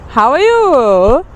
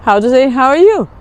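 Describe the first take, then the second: First: How are you? drawn out slowly, rising on you; slow, careful How are you? with a rising end; slow, clear model phrase. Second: Said in the usual way. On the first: Shown as a demonstration. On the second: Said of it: "Today we are going to deal with".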